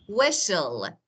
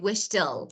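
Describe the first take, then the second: First: The t sound is silent. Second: The t sound is clearly pronounced. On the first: The speaker calls it right. "So it's silent T" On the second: The speaker calls it wrong. "So I don't say whistle"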